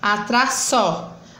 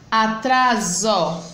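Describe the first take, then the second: First: The middle consonant is a hissing s sound. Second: The middle consonant is a buzzing z sound. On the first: The speaker calls it wrong. "botando o som do S" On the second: The speaker calls it right. "está entre a vogal A e O"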